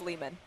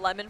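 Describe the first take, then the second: First: The first vowel is long, as in 'lay'. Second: The first vowel is short, as in 'lemon'. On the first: The speaker calls it right. "but I think it's Lehman" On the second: The speaker calls it wrong. "I've been pronouncing it Lemon for like three years now"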